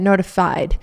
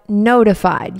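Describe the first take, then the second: First: The stress falls on an unusual syllable. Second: The stress falls on the usual syllable. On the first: The speaker calls it wrong. "I don't know why I put the wrong emphasis on the wrong syllable" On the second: The speaker calls it right. "but notified"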